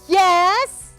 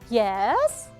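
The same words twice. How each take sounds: First: The pitch rises up to a high level. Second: The pitch starts low and rises slightly. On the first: "And the fourth one is high rise" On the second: "So the third one is low rise"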